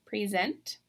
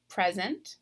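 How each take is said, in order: First: "present" as the verb, pree-ZENT; "present" stressed on the second syllable; last-syllable stress. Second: "present" as the noun, PREZ-ent; "present" with a short e, stressed up front; first-syllable stress. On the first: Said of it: "but there is a difference". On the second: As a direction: hit the start of "present": PREZ. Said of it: "in the noun column". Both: Shown as a demonstration.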